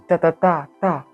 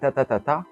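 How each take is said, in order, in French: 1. Le troisième temps est le plus fort. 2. Le dernier temps est le plus fort. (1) "le troisième est tapé fort" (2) "le dernier est tapé plus fort"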